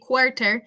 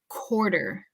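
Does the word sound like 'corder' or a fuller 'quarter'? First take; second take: fuller quarter; corder. First: It is said with fuller 'kw' and 't' sounds. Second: It is said with a 'k' and 'd' sound. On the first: The speaker calls it wrong. "We don't have to say quarter" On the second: The speaker calls it right. "if it were a C O R D E R, quarter"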